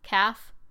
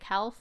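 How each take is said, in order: First: The L is silent in the word. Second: The L is clearly pronounced in the word. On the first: "it has that L in it" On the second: "I always want to pronounce the L and make it calf"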